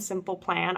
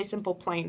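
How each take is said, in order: First: Said in the usual way. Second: "Plain" with a long AY vowel; "Plain" said in place of short-A Plan; mispronounced Plan. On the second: Shown as a demonstration. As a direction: say "Plain", rhyming with rain, for Plan. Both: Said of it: "I always say Simple Plain first".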